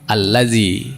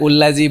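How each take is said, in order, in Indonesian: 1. Kata ini dimulai dengan vokal a. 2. Kata ini dimulai dengan vokal u. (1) "maka otomatis dibaca A" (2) "Bukan ullazi"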